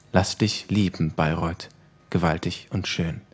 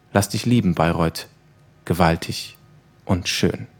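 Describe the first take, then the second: No difference in how they are said.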